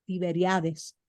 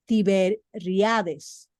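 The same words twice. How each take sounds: First: Said in the usual way. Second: Tiberiades, syllable by syllable, very slow; Tiberiades를 한 음절씩 아주 천천히; careful correction. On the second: Shown as a demonstration.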